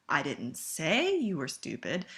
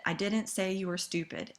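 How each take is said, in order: First: Emphasis on say, slowed; stress on say. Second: Didn't leaned on, falling; emphasis on didn't, rest light; stress on didn't. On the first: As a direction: say drawn out slowly with a rise. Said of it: "put the emphasis on the red word". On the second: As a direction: hit the word didn't. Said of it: "read that sentence in red". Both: Shown as a demonstration.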